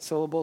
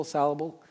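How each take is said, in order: First: Said in the usual way. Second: Syllable as "SAL-able", first vowel a short A; syllable deliberately botched as "sallable"; attempted mispronunciation. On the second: Shown as a demonstration. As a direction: say syllable wrongly, starting with "sal". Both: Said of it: "I don't know how to say it incorrectly".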